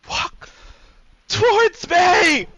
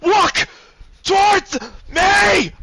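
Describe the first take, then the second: First: First word held back, then a high, drawn-out scream; tearful scream. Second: High, drawn-out full-force scream; screamed command. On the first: Weeping man repeating his order to her, tearful scream. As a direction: scream it through tears. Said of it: "he's gonna say it again, tears rolling down his eyes". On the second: Man ordering her to walk to him, screaming. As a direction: scream each word at the top of your lungs. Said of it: "screaming at the top of his lungs". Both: Acted.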